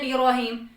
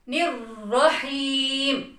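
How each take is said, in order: First: The r sound is weak and barely heard. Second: The r sound is firm and clearly heard. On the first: The speaker calls it wrong. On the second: The speaker calls it right.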